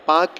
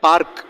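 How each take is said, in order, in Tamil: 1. r ஒலி ஒலிக்கப்படாது. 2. r ஒலி ஒலிக்கப்படுகிறது. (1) "அது சைலண்ட்" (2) "பார்க் அப்படின்னு சொல்லக்கூடாது, அந்த ஆர் ப்ரொனவுன்ஸ் பண்ணக்கூடாது"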